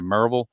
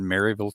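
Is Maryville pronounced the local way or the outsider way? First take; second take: local; outsider. First: The name is said with the locals' pronunciation. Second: The name is said with an outsider's pronunciation. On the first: "we all say Maryville" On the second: "I'm not pronouncing it the way the natives do"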